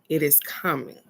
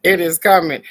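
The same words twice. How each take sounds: First: Said in the usual way. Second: Loud repeat. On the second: Shown as a demonstration. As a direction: say it again out loud with a grin.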